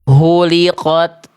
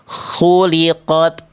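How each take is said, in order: First: It starts with a strong, throaty h sound. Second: It starts with a rasping kh sound. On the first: The speaker calls it wrong. "Yang A itu salah karena dia itu tadi dibaca H besar" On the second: The speaker calls it right. "Yang betul adalah yang C"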